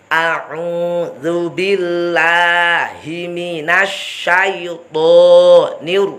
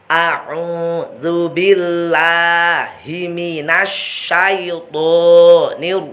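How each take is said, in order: No difference in how they are said.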